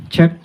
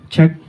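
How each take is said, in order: The two takes are said the same way.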